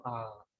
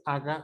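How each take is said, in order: First: AGA with a barely touched g; g suave. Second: AGA with a hard stopped g; g fuerte. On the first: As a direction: soften the g in "aga" to a glide. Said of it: "sino aga". ("aga" con g muy relajada) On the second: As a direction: close fully on the g of "aga". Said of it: "no dice aga". ("aga" con g oclusiva) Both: Shown as a demonstration.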